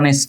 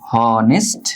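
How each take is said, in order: First: The word begins directly with a vowel sound. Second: The word begins with an audible H sound. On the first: The speaker calls it right. "নাকি করো অনেস্ট? ... এইস এর উচ্চারণটা নাই, এটা silent" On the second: The speaker calls it wrong. "তুমি কি এটার উচ্চারণ কখন হনেস্ট করো?"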